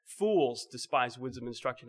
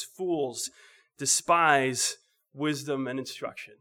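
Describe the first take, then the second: First: Said in the usual way. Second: Slow, weighty reading of the verse; scripture reading. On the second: Shown as a demonstration. Preacher reads the verse slowly to the congregation, solemn. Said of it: "Proverbs chapter one and verse seven says".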